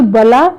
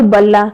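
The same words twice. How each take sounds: First: "बला" with one short l; single l in बला. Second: "बल्ला" with a held double l; doubled l in बल्ला. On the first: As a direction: keep the l of "बला" undoubled. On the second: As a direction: linger on the l of "बल्ला". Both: Shown as a demonstration. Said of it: "द्वित रूप में देखें तो".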